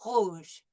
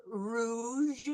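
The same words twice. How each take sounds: First: Rouge with a French r from the throat; throaty r. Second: Rouge with the English r, tongue in front. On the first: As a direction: say rouge with a uvular r. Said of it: "we'll do the French R". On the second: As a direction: say rouge with an American r, lips rounded. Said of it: "like, the English R". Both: Shown as a demonstration.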